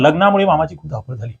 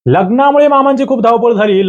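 First: "मामाची" with an open second "मा", no nasal; softer reading, "मामाची" with no n before "ची"; without anusvara. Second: "मामांची" with a nasal n before "ची"; higher-pitched reading, "मामांची" nasalised in the second syllable; with anusvara. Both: Shown as a demonstration. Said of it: "हे अनुस्वार नाही".

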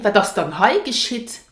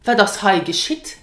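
First: Gentler "Wat das dann hei geschieht?" with dann added; softer question. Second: Said in the usual way. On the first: Shown as a demonstration. Teacher showing the softer version of the question. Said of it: "it sounds softer". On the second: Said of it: "So you can say".

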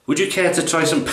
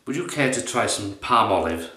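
First: Higher posh English accent retry; corrected posh accent. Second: A first, off-target try at a posh accent; posh accent attempt that misses, about level with his own voice; wrong accent. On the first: Offering soap in posh London, corrected posh accent. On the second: Offering soap to someone in posh London, wrong posh accent. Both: Shown as a demonstration. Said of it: "No, no, wrong accent".

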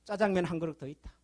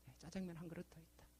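First: Said in the usual way. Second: Soft echo. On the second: Shown as a demonstration. Pastor repeating his point to the congregation, hushed echo. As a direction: repeat it much softer, almost to yourself.

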